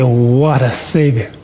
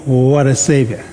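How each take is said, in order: First: "What a Savior" slow and marvelling, with a small laugh; slowed, awestruck "What a Savior" with a light laugh; amazed. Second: "What a Savior" asked like a question; gently questioning "What a Savior". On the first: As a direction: let "What a Savior" fall in slow wonder. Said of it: "you're so amazed at he". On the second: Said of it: "put that in the form of a question". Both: Shown as a demonstration.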